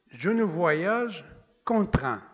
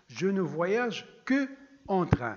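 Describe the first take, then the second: First: The first vowel is dropped before 'en'. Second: Both vowels are said, 'que' then 'en'. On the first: "on a supprimé la première" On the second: "l'origine de la phrase"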